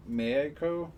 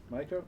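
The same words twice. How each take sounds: First: "Meiko" with first syllable like "may"; trial pronunciation. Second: "Maiko" with first syllable like "my"; trial pronunciation. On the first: Game master unsure of a character's name, trying "Meiko" as MAY-ko. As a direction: draw out "Meiko" as MAY-ko, questioning. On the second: Game master unsure of a character's name, trying "Maiko" as MY-ko. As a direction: say "Maiko" as MY-ko, rising in question. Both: Shown as a demonstration.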